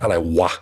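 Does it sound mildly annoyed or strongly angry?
strongly angry. It sounds strongly angry, like "what the fuck."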